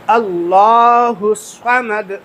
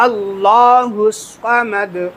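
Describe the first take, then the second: No difference in how they are said.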